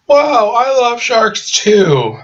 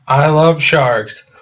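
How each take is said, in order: First: Much higher, slow, gushing put-on voice; mock gushing shark girl. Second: Slow, slightly higher deadpan line; mock earnest girl. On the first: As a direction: squeal it out slowly with fake delight. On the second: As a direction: say it slowly like an odd fan. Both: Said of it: "It's like".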